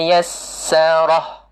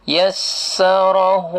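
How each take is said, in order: First: The word ends on a bare 'h' sound. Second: The word ends with a lengthened 'hu' vowel. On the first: The reading stops at this word. "kalau wakaf berhenti" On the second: The reading continues into the next word. "dia jadi mad asli kalau sambung"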